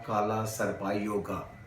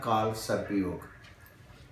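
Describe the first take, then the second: First: Each word ends with an added 'a' vowel. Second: Each word ends without a final vowel. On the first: The speaker calls it wrong. "काला सर्पा योगा नहीं होता" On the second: The speaker calls it right. "आखिर में हिंदी में ए silent हो जाता है"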